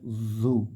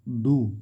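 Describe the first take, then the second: First: The first consonant is airy with breath. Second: The first consonant is a hard stop. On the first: The speaker calls it right. "zu dikasih angin" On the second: The speaker calls it wrong. "tidak boleh du"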